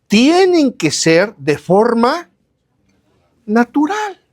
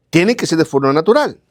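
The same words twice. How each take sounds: First: "tienen que ser de forma natural" slow and drawn out, "natural" lifted high on a rise; slow preacher emphasis rising on "natural". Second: Said in the usual way. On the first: Shown as a demonstration. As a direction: stretch each word, then lift "natural" up high.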